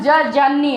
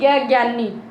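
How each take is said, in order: First: The letter begins with a j sound. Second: The letter begins with a g sound. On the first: The speaker calls it right. "इसका सही उच्चारण ज ज्ञानी है" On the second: The speaker calls it wrong. "ना कि ग ज्ञानी"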